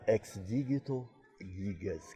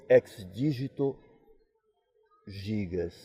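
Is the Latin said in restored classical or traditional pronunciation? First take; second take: restored classical; traditional. First: It uses the restored classical pronunciation of Latin. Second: It uses the traditional pronunciation of Latin.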